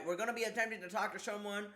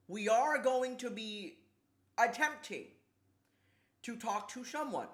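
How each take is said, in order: First: Said in the usual way. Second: Grand announcement. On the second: Pretend. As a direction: announce it in spaced-out, deliberate chunks. Mock announcement, then repeated quickly.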